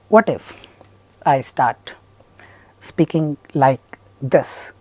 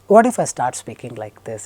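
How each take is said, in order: First: It is choppy, with broken rhythm. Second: It is slow, with steady rhythm. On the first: The speaker calls it wrong. "Then it's a problem" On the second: The speaker calls it right. "It's absolutely, totally, fantastically fine"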